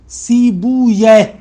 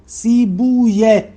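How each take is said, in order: No difference in how they are said.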